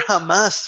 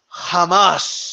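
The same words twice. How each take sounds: First: Said in the usual way. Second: "Jamás" drawn out with a very long hissed final s; Margarito. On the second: Retold or imitated. Showing how long the boxer said it, "Jamás" endlessly stretched. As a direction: hold the last s of "Jamás" absurdly long. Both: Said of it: "for that long".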